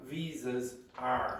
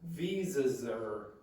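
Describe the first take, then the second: First: The word 'are' is said fully and separately. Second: The word 'are' is contracted onto 'visas'. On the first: The speaker calls it wrong. "It's not visas are" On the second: The speaker calls it right. "I contracted it with this"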